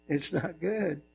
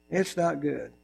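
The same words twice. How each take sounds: First: Even softer, sinking low; softer still. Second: Low, soft and grave; hushed and serious; quiet warning. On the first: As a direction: let it fade to a hush. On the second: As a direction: drop the voice and warn. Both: Shown as a demonstration.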